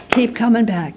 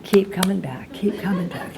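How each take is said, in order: First: Said in the usual way. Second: Mock slogan fading from soft to a whisper. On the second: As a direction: let the slogan die away into a whisper.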